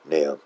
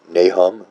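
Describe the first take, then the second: First: The H in the middle is silent. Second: The H in the middle is pronounced. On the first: The speaker calls it right. "Kind of just obliterating the H" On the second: The speaker calls it wrong. "rather than like Nahum"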